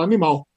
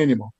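First: Animal said the Portuguese way; Portuguese pronunciation. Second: Animal said the English way; English pronunciation. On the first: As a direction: say "animal" in Portuguese, stressed on the last syllable. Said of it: "Como que fala essa palavra em português?". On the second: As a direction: say "animal" in English, stressed on the first syllable. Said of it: "em inglês é animal". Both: Retold or imitated.

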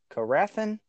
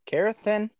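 First: "Carathin" as kuh-RATH-in, higher, questioning; tentative pronunciation. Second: "Carathin" as KAIR-uh-thin, higher; alternative pronunciation. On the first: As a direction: try "Carathin" with stress on the middle syllable. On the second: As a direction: say "Carathin" with stress on the first syllable. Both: Shown as a demonstration. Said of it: "I think you say".

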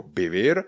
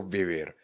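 First: "bivir", vivir begun with a b. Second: "vivir" begun with a clear v; falling "vivir" with Czech-like v. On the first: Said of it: "spíše více jako bivir". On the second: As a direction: keep the first sound of "vivir" a v. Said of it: "někdo jako vivir". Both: Shown as a demonstration.

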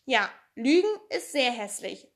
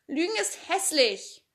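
First: A hint of sadness in Pippi's voice on "Lügen"; even sadder. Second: Put-on higher little girl's voice, a touch prim; a shy girl finally speaking up with a small scold; Annika scolding. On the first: A narrator's reading. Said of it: "sagte Pipi noch trauriger". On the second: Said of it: "sagte Annika".

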